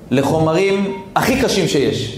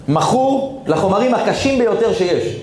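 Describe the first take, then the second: First: Said in the usual way. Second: מכור stressed, higher and slow; grave, slow emphasis on מכור; emphatic. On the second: Shown as a demonstration. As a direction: lean hard on מכור. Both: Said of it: "repeated with emphasis".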